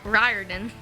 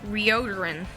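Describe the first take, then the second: First: The name is said in its standard form. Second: The name is said with altered sounds. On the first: The speaker calls it right. "it's pronounced Riordan" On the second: The speaker calls it wrong. "I pronounced it Rioderin"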